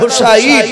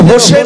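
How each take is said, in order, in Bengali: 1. নামটা তিন শব্দাংশে বলা হয়, Hu-sa-in। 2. নামটা দুই শব্দাংশে বলা হয়, Ho-sen। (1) "শব্দটা হবে হযরতে হুসাইন" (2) "এই জন্য হোসেন বাপজি বলা যাবে না"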